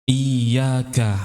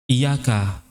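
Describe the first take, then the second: First: The y sound is doubled and held long. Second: The y sound is single and short. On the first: It means 'you alone'. The speaker calls it right. "itu kan ada tasydid ya, maka iyanya didobelkan" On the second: It means 'your sunlight'. The speaker calls it wrong. "jangan dibaca iyyaka ... membaca dengan tanpa tasydid"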